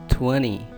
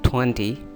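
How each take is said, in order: First: The middle consonant sounds like a soft d. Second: The middle consonant is a clear t sound. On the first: The speaker calls it right. "but the real pronunciation is twenty" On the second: The speaker calls it wrong. "People mostly saying it twenty"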